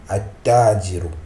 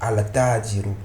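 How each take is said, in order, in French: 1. Le L n'est pas prononcé et le t est doublé. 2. Un son L clair vient avant le t. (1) "ça va se prononcer" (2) "Vous voyez, il y a une difficulté"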